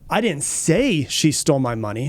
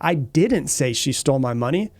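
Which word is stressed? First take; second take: say; didn't. First: The stress falls on the word "say". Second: The stress falls on the word "didn't". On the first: It was hinted rather than said outright. "You know, I might have hinted" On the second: The accusation of having said it is denied. "I'm denying the claim or the, the accusation that I said she stole my money"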